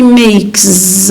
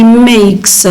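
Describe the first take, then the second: First: "makes" ending in a buzzed z; wrong voiced z ending. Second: "makes" slowly, ending in a hissed s; final voiceless s. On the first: Teacher showing the mistake, "makes" with final z sound. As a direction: say "makes" slowly as if spelt "makez". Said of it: "We don't say makes". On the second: Teacher giving the correct form, "makes" with final s sound. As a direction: say "makes" with an unvoiced s at the end. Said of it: "We say makes". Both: Shown as a demonstration.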